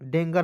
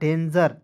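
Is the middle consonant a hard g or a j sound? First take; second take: hard g; j sound. First: The middle consonant is a hard g. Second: The middle consonant is a j sound. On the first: The speaker calls it wrong. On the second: The speaker calls it right.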